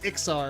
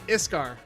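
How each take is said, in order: First: The k sound comes before the s. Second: The s sound comes before the k. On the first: This is how other people say it. The speaker calls it wrong. "people correct me and they say it's Ixar" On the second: This is how the speaker said it as a teenager. The speaker calls it right. "Iskar is what I said"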